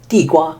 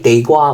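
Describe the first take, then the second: First: The word is pronounced with Mandarin sounds. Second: The word is pronounced with Cantonese sounds. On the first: "So Mandarin, sweet potato is 地瓜" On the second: "地瓜directly transliterated into Cantonese"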